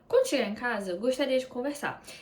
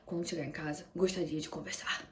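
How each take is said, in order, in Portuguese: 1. É lida em um tom simples e neutro. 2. É lida em um tom pesado e ameaçador. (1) "E aí eu falar assim" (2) "vai ler isso dessa maneira: ... vai ter um teor muito difícil ... vai dar ruim"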